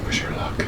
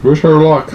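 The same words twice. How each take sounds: First: Whispered wish for luck. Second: Said in the usual way. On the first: Real, not acted. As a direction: breathe it out unvoiced.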